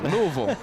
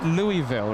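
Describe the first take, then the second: First: The name begins with a short 'Luh' sound. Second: The name begins with 'Louie' before 'ville'. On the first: The speaker calls it right. "I'll say it correctly next time" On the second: The speaker calls it wrong. "I say it Louisville"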